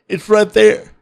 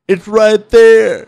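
First: It is said at normal volume. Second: It is said more loudly.

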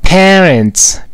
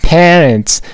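Both takes have the same delivery.

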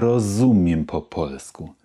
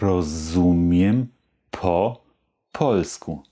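First: The phrase is spoken at its fastest. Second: The phrase is spoken somewhat faster. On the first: "Und noch etwas schneller" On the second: "Etwas schneller"

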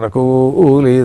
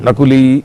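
First: The syllable 'ku' is drawn out with pitch accent. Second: The syllable 'ku' is short and plain. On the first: This is the Rigvedic recitation pronunciation. "ఈ కు స్వరితం ... ఋగ్వేదులు ఎట్లా ఉచ్చరిస్తారు? ... దీర్ఘం కాదు అది" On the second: This is the ordinary everyday pronunciation. "నకులి అని ఉచ్చరించాల్సి వస్తుంది మనం మామూలుగా అయితే"

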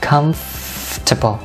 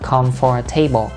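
First: The vowel after the f is dropped entirely. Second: The vowel after the f is fully pronounced. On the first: The speaker calls it right. "Âm O ở đây nó là âm câm ha" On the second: The speaker calls it wrong. "không có đọc là comfortable"

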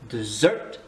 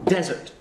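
First: The stress is on the second syllable. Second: The stress is on the first syllable. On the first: It is the sweet food eaten after a meal. "si tu accentues sur la deuxième, c'est le dessert que tu veux manger" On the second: It is the dry place where it is hot. "si tu accentues sur la première syllabe, tu dis que c'est le désert"

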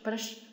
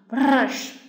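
First: The r sound is light and soft. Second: The r sound is strong and heavy. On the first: "有的人又会读的非常轻" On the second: "发这个r 就会发的非常的重，就像老师读这样"

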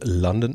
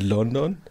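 First: London is said with a put-on English accent. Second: London is said with a plain German accent.

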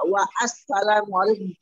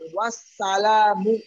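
First: The 'a' after 'wa' is pronounced separately. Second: The 'a' is dropped, 'wa' links directly. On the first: The speaker calls it wrong. "bukan dibaca apa?" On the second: The speaker calls it right. "Langsung wassalamu"

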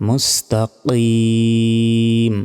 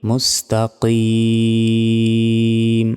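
The two takes are said the same way.

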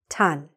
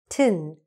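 First: The syllable has a full open vowel, like 'tan'. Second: The syllable has a short reduced vowel, like 'tin'. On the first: The ending is said on its own, not inside a name. The speaker calls it wrong. "when we say T-O-N by itself, the word is tan" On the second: The ending is said as part of a name like Sheraton. The speaker calls it right. "here it gets shortened. Sheraton, tin, not tan, tin"

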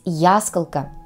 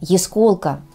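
First: The stress is on the first syllable. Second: The stress is on the second syllable. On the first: The speaker calls it wrong. "произношение этого слова с ударением на первый слог, то есть ясколка" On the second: The speaker calls it right. "Правильное произношение – ясколка"

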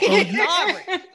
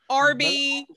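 First: The name is said like 'Aubrey'. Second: The name is said like 'Arby'. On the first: The speaker calls it right. "That's our dad" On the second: The speaker calls it wrong. "people who his entire life called him Arby"

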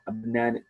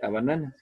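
First: The vowels are lengthened and clearly voiced. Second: The vowels are short and plainly spoken. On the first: The speaker calls it right. "Tiene un poquito más de vocalización, las hacemos más larguitas" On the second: The speaker calls it wrong. "No digo simplemente a banana"

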